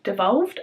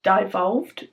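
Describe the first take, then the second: First: Said in the usual way. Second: "devolved" with first syllable like "die"; long i in the first syllable of "devolved"; alternative pronunciation. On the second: Real, not acted. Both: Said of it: "devolved, I guess".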